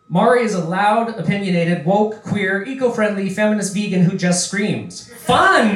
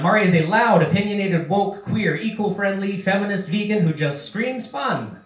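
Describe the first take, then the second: First: A pause comes before fun, said as an exclamation. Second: Fun runs straight on from screams without a pause.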